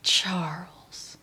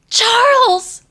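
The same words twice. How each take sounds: First: The name is said in a disappointed tone. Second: The name is said in a worried tone.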